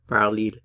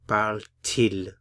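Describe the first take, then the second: First: The two vowels run together with no t sound. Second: A t sound separates the two vowels. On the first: The speaker calls it wrong. "it's a little more difficult to say because of the two vowels together" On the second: The speaker calls it right. "we insert the letter T to get that T sound in there to separate the two vowels"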